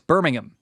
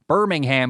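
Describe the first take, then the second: First: The final syllable is reduced, not a clear 'ham'. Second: The final syllable is a full clear 'ham'. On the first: The speaker calls it right. "in the U K, ... it's Birmingham. ... they don't say ham" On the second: The speaker calls it wrong. "it's not Birmingham"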